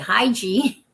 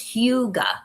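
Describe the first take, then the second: First: It is said like high-gee. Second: It is said like hoo-gah. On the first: The speaker calls it wrong. "initially when I first saw it, I would say hi G" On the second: The speaker calls it right. "but it's Huga. That's how you pronounce that word"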